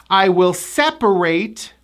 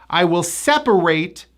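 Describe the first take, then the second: Both takes have the same delivery.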